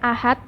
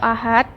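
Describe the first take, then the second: First: The final consonant sounds like t. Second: The final consonant sounds like d. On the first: "bunyi T atau D" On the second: "bunyi T atau D"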